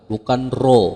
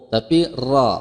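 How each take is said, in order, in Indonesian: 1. Vokalnya dibulatkan, seperti 'o'. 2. Vokalnya terbuka, seperti 'a'.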